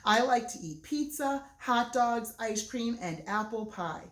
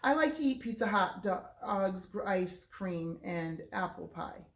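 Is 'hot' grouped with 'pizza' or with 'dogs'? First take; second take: dogs; pizza. First: Hot is grouped with dogs, after a pause. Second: Hot is grouped with pizza, before a pause.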